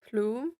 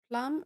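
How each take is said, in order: First: The word has a long oo vowel, like bloom. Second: The word has a short vowel, like plum. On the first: The speaker calls it right. "Like bloom? Just with P?" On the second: The speaker calls it wrong. "I said it wrong the whole time"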